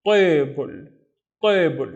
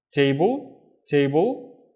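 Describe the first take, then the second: First: "table" begun with a dark, heavy Arabic ṭa; heavy Arabic emphatic T. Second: Said in the usual way. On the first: Shown as a demonstration. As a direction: say "table" with a thick emphatic T, vowel pulled back, drawn out. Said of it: "pronounce it with this letter instead". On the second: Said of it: "If I want to pronounce it".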